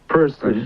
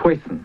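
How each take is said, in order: First: It is said in a standard accent. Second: It is said in a Brooklyn accent.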